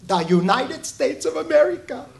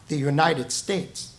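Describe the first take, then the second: First: A light imitation of a thick Russian accent; grandpa's proud Russian accent, lightly done. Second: Said in the usual way. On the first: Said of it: "in his thick Russian accent". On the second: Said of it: "ever heard Zadie say".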